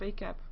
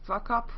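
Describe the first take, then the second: First: The first syllable is said as in vacation. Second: The first syllable is not said as in vacation. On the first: The speaker calls it right. "Like vacation, but then VCAP" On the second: The speaker calls it wrong.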